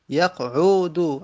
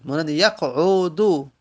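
First: یقعدو stretched out slowly, a little louder; slow model reading. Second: یقعدو said carefully with the ع; model word. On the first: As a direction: repeat یقعدو slowly so they hear the vowels. (یقعدو را آهسته تکرار کن) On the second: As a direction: present یقعدو clearly. (یقعدو را با دقت بخوان) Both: Shown as a demonstration. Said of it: "عین حرف سوم دمه داره".

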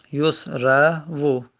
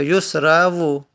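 First: یسرو very slow, as yus-ra-vu; syllable by syllable. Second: Said in the usual way. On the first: Shown as a demonstration. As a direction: pause between the syllables of یسرو, voicing the final "vu". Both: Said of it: "که واو حرکت داره".

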